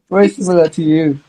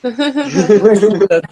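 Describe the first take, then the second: First: Said in the usual way. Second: Laughing. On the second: Real, not acted. Laughing while teasing.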